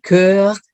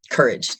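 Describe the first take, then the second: First: "courage" said the French way; "courage" in two drawn-out French syllables; French pronunciation. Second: Said in the usual way. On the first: Shown as a demonstration. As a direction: split "courage" French-style into coeur and age. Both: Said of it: "from the French word courage".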